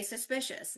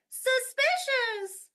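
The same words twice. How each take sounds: First: Said in the usual way. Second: Very high, loud, stretched "suspicious"; changed silly tone. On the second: Shown as a demonstration. Teacher making students copy a silly tone, high and drawn out. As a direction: sing out "suspicious" on one high held pitch. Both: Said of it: "I'll even change the tone".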